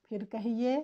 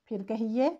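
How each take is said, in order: Both takes have the same delivery.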